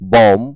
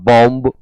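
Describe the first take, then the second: First: The final b sound is silent. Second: The final b sound is pronounced. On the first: The speaker calls it right. "बी को pronounce नहीं करना होता है" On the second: The speaker calls it wrong. "बॉम्ब, कॉम्ब जैसे शब्द न पढ़ें"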